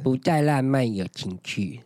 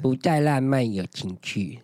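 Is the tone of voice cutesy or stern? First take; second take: cutesy; cutesy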